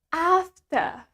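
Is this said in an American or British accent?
British. It is said in a British accent, no clear r. "in British English, we pronounce it as after"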